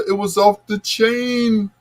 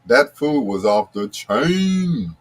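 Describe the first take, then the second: First: Chain said high and far from his own voice; Bill Bellamy voice. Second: Said in the usual way. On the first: Retold or imitated. DJ redoing food praise as Bill Bellamy. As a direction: say it was off the chain way up, comic style. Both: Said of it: "In my, uh, Bill Bellamy voice".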